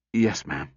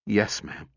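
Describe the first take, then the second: First: Hoarse, like machinery needing oil. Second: Said in the usual way. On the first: A narrator's reading. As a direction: grind it out hoarsely. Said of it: "Then it came out hoarsely, like machinery needing oil". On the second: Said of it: "Then it came out hoarsely".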